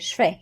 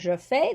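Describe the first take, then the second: First: The pronoun loses its vowel and joins the verb. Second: The pronoun is said in full with its vowel. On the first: "they say je fais" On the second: "instead of saying je fais"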